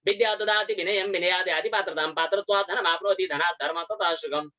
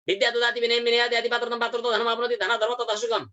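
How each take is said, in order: First: The verse is recited at a fast pace. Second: The verse is recited at a very fast pace. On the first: "शीघ्रम् उच्चारयतु" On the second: "ततोपि शीघ्रम्"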